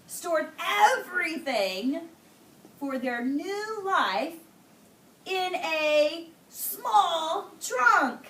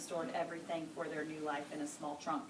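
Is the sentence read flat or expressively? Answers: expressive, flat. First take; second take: expressive; flat. First: Important words are emphasized with an expressive voice. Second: It is read in one level, flat voice. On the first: The speaker calls it right. "She said it like this" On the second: The speaker calls it wrong. "She didn't say"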